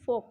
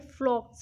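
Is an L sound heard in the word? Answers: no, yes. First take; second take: no; yes. First: The word is said without an L sound. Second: The word is said with an L sound. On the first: The speaker calls it right. "लेकिन ये फॉग होता है" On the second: The speaker calls it wrong. "कुछ लोग इसको यहाँ पे फ्लॉक्स भी बोलेंगे"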